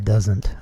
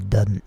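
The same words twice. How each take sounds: First: The word is said in a standard way. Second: The word is said in a Southern way. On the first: "I don't say doesn't" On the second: "I say doesn't ... more of a southern thing"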